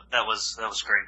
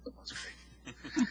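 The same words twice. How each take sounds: First: Said in the usual way. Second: Slow, breathy, dripping with sarcasm; sarcastic. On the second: Acted. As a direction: drag it out, mockingly unimpressed. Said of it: "Oh, sarcasm".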